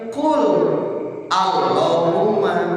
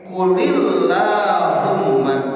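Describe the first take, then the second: First: The L of qul carries no vowel. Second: The L of qul takes an 'i' vowel. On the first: This is the underlying form before the rule applies. "Asalna mah kieu" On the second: This is how the verse is actually recited. "Tetap lafadzna teh"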